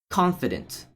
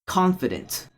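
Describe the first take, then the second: The two takes are said the same way.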